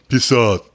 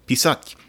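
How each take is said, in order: First: The final t is hard, without softening. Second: The final t is soft and palatalized. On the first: The speaker calls it wrong. "that's the best he could do" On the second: The speaker calls it right. "it has to be pisat, it's called the soft sign"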